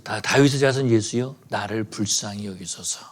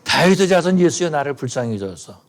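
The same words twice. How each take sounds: First: A mildly raised plea, trailing off softer; retold cry for mercy. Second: Louder retold cry. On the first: Blind beggar calling to passing Jesus, mild mock cry. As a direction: call out to Jesus, only half-voiced. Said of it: "이 바디메오가 소리 지르기 시작합니다". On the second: Beggar shouting louder after Jesus, louder mock cry. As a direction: cry out harder as the crowd moves on. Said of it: "점점 더 크게 소리를 지르는 거죠".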